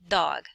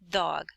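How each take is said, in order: No difference in how they are said.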